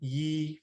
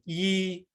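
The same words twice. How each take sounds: First: The word is said on a mid level tone. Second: The word is said on a high level tone. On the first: It means laughter. "mid tone yi for laughter" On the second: It means year. "high toned yi for year"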